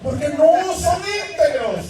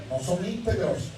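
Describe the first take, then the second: First: "no" slow and pressed hard; stress on no. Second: Quiet. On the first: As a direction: lean on "no" slowly. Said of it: "stress on no, slow". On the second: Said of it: "quiet repeat of same words". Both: Shown as a demonstration.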